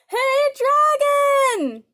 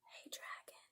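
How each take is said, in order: First: It is shouted very loudly. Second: It is whispered very softly.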